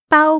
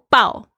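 First: The pitch stays high and level. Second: The pitch falls sharply from high. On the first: "中文有四声" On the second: "全部都是不一样的意思"

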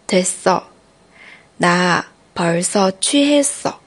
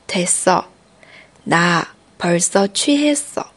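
The two takes are said the same way.

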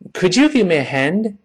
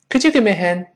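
First: It is said at a moderate, linked pace. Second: It is said quickly with the final d dropped. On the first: "A hand 放到一块儿把它读起来" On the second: "再快一点"

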